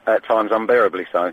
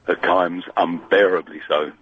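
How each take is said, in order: First: It is said in his normal voice and pace. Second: It is said in a deeper, slower voice.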